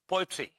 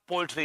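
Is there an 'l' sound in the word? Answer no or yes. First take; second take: no; yes. First: The word is said as 'poetry', without an 'l'. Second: The word is said like 'poultry', with an 'l'. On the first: The speaker calls it right. "It's पोएट्री" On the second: The speaker calls it wrong. "It's not पोएट्री"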